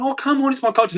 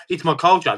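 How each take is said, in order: First: Much higher, whiny mock of "it's my culture"; high sneering mock voice; mocking whine. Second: Said in the usual way. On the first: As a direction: sneer it like a pleading excuse. Mocking the attacker's excuse.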